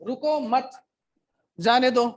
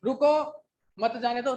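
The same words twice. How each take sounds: First: रुको मत together, break, then a louder जाने दो; group रुको with मत, pause, push out जाने दो; pause after मत. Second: रुको alone, break, then मत जाने दो together; pause after रुको. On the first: ("रुको मत" के बाद ठहराव, फिर ज़ोर से "जाने दो") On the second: ("रुको" के बाद ठहराव, फिर "मत जाने दो" एक साथ) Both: Shown as a demonstration. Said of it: "आपको ठहराव के लिए आप रुकते हो".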